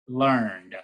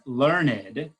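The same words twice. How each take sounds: First: The word is said as one syllable. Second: The word is said as two syllables. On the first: It is an everyday, colloquial way of saying it. "pronounce the word as one syllable" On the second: It is a more poetic, elevated way of saying it. "which might be a different poetic way of pronouncing that word"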